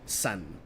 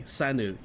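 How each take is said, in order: First: The word ends on the N sound. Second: The word ends with an extra vowel after N. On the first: The speaker calls it right. "you say it san" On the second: The speaker calls it wrong. "You don't say sanu"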